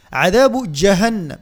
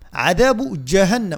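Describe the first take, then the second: No difference in how they are said.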